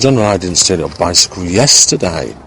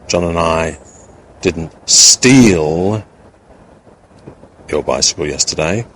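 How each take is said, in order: First: The word yesterday is stressed. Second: The word steal is stressed. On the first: The stealing happened on another day. "by underlining, seeing that yesterday was the, in a sense, the only day" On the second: Something else was done to it, not stealing. "with the implication that we may not have stolen it, but we may have done something else in relation to it"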